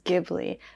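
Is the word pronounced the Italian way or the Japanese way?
Italian. The word is pronounced in its original Italian way. "the correct pronunciation of the actual word is Ghibli"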